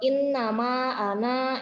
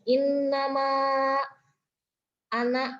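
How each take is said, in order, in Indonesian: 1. Vokal akhir dari ana panjang. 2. Vokal akhir dari ana pendek. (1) "bukan bukan wa in nama anak, itu salah ya" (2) "dibacanya jadi pendek"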